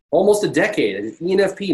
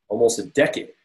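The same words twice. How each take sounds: First: Almost a decade pushed much higher and louder; emphatic repeat. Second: Said in the usual way. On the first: Shown as a demonstration. Speaker stressing his decade of commitment to listeners, emphatic.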